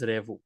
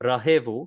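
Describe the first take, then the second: First: The word is shortened to two syllables. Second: The word is said in full, with three syllables. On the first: This is how people commonly say it. "people pronounce it as revu" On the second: This is the full standard form of the verb. "the verb revu is actually rahevu"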